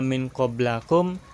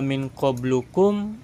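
First: The vowel after qabl is a. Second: The vowel after qabl is u. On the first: "enggak min qablakum" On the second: "enggak min qablukum"

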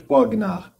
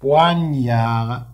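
First: The 'gn' is said with a hard 'g' sound. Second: The 'gn' is said as a 'ny' sound. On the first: The speaker calls it wrong. "ما كنقولوش بوغنار" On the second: The speaker calls it right. "بوانيار هاد الجيمه عين كنقراو ني"

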